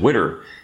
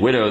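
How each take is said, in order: First: The word ends with an 'er' sound. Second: The word ends with an 'oh' sound. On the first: "they said widder" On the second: "Instead of saying widow"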